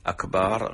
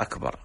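First: أكبر with a long "baar"; stretched ba. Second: Said in the usual way. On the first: Shown as a demonstration. Sheikh contrasting the wrong word with the right, stretched ba. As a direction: lengthen the second vowel of أكبر to aa. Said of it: "مد الباء في أكبر". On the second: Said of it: "المعنى غير أكبر".

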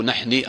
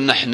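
First: نحني with a wrong final i; quiet mock-wrong نحني; wrong form. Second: Said in the usual way. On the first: Shown as a demonstration. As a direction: say نحني with an added i ending. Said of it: "لا، لا". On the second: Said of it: "ما تقول".

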